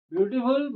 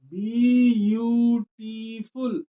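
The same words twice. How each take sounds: First: Said in the usual way. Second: ब्यूटीफुल said very slowly, each syllable pulled apart; syllable demo. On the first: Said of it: "most लगा दीजिए". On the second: Shown as a demonstration. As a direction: break ब्यूटीफुल into syllables, very slow. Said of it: "पहला pronunciation B". (ब्यूटीफुल को बहुत धीरे, एक-एक syllable अलग करके बोलना)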